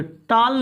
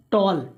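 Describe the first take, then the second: First: टॉल said with a long aa, like "taal"; wrong vowel demo. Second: टॉल with a rounded aw, "tawl"; correct vowel demo. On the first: Teacher showing students the mistake, mispronounced. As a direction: demonstrate the mistaken टॉल with an open aa. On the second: Teacher giving students the correct word, carefully pronounced. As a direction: model टॉल with rounded aw, falling. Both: Shown as a demonstration. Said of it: "टॉल नहीं".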